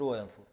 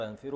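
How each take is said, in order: First: وينفر said softly as "wa-yanfuru"; damma on f. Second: ينفر said softly as "yanfiru"; kasra on f. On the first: Teacher quietly recaps both forms, وينفر with u. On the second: Teacher quietly recaps both forms, ينفر with i. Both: Shown as a demonstration. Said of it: "بكسر العين وبضمها".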